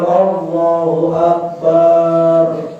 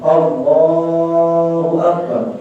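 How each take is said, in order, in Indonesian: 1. Vokal pada Akbar dipanjangkan. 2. Vokal tengah Allah dipanjangkan. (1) "Atau di lapas akbar. ... niki salah" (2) "yang betul itu ialah di lapas Allahnya"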